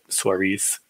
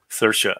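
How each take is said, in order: First: The name is pronounced like 'Suarez'. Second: The name is pronounced like 'Seer-sha'. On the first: The speaker calls it wrong. "if that's how you say it" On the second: The speaker calls it right. "that's like the Irish pronunciation"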